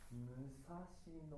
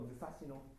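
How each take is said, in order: First: The word is said slowly. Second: The word is said quickly. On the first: "ゆっくり言うと" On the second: "早く言うと"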